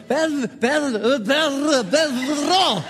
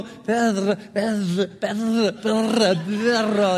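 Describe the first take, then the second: First: Perro said proudly, the R trilled hard; proudly rolling R. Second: Perro repeated with a rolled trilled R, practising. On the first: The coach showing off to the girl, Perro with a trilled R. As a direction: show off the rolled R in Perro. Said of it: "he goes". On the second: The coach practising his Spanish dog word, Perro with rolled R. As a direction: drill Perro over and over, rolling the R. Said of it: "every evening he would go". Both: Retold or imitated.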